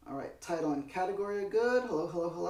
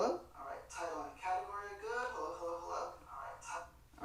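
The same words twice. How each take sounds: First: Said in the usual way. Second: Quiet, fast unhinged villain voice; cackling madman tone, hushed; crazy voice. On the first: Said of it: "that's my voice". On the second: Shown as a demonstration. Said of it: "That's my crazy voice".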